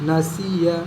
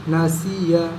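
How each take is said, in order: The two takes are said the same way.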